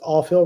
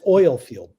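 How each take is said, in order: First: The first word is said like 'all', one vowel. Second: The first word is said 'oil', with two vowels. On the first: "my brain still says, you see O I L, that word is all" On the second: "That's oil field for anybody else"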